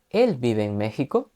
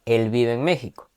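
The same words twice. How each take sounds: First: "él" lifted, ending on a rise; question tune. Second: "México" falls at the end; statement tune. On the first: Teacher translates with rising question intonation. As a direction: ask "¿él vive en México?" with a rising end. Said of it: "entonación hacia arriba". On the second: Teacher translates with a falling statement tune. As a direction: let "él vive en México" settle down. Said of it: "en pregunta tendremos que terminar con una entonación hacia arriba". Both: Shown as a demonstration.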